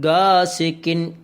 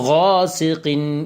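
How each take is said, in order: First: It begins with a plain hard g. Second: It begins with a gargled throat consonant. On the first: The speaker calls it wrong. "ഗായാണ് ഉച്ചരിക്കാറുള്ളത്" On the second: The speaker calls it right. "ഗൈൻ തന്നെ ഉച്ചരിക്കുവാൻ വേണ്ടി ശ്രദ്ധിക്കണം"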